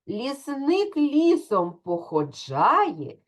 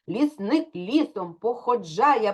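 First: The words are spoken at a slow pace. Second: The words are spoken at a fast pace. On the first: "давайте скажемо скоромовку разом зі мною повільно" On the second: "А тепер спробуємо швидко"

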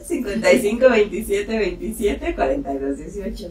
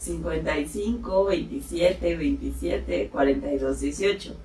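First: The number is said fast. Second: The number is said slowly.

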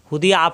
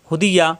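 First: The last syllable breaks with a glottal catch. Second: The last syllable glides smoothly as ya. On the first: The letter becomes a hamza. The speaker calls it wrong. "এখানে যদি হুদিয়া আ পড়ি তাহলে কিন্তু এটা হামজা হয়ে যাবে" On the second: The letter is ya. The speaker calls it right. "এটা হলো ইয়া"

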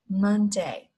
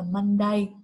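First: One syllable is stressed more than the other. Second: Both syllables get the same stress. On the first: The speaker calls it right. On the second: The speaker calls it wrong.

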